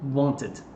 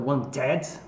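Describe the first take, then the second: First: The final -ed syllable is soft and unstressed. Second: The final -ed syllable is stressed and open. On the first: The speaker calls it right. "ele vai sempre suavezinho" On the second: The speaker calls it wrong. "nunca wanted"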